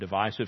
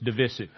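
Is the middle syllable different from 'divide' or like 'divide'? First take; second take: like divide; different. First: The middle syllable sounds like 'divide'. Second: The middle syllable does not sound like 'divide'. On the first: "I always learn divisive because it divides" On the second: "I hear people all the time saying it's divisive"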